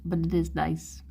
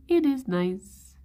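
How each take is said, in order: First: Said in the usual way. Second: "It is nice" with "It" pitched higher and drawn out slowly; insisting "It is nice", the word "It" lifted and slowed; stress on It. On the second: Real, not acted. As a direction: lean hard on "It" to insist, slowly.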